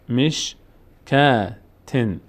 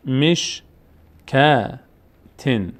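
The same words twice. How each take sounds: The two takes are said the same way.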